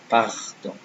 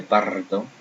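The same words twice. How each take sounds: First: "pardon" with a throaty French R; "pardon" with unrolled back-of-throat R. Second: "pardon" with a trilled tongue-tip R; "pardon" with R rolled long. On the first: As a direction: say "pardon" correctly, R scraped at the back. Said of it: "I said pardon". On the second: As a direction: say "pardon" wrongly, rolling the R like Spanish. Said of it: "I didn't say pardon". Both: Shown as a demonstration.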